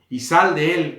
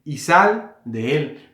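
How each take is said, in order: First: Loud, shouted order to get out; Jesús. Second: Very slow, drawn-out reading. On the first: Acted. Jesus ordering demons out of a man, shouting loudly. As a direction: call it out as a firm command. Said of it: "gritando, le dijo en alta voz". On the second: Shown as a demonstration. Preacher reading Jesus' order to demons, slowly and deliberately. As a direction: read the command out deliberately, word by word. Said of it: "estoy leyendo así despacio".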